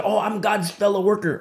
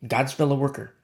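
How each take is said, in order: First: Sarcastic, higher imitation of a self-righteous claim; mocking quote. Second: Said in the usual way. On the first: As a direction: mimic the smug boast. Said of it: "Okay, okay". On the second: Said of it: "let's analyze here".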